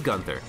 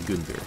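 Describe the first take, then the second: First: The first syllable sounds like the word gun. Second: The name is pronounced like an ordinary person's name. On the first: The name is a pun on the word gun. "they want you to pronounce it gun" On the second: It is the usual name of a person. "like if a human being was named Gunther"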